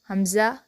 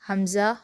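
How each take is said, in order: No difference in how they are said.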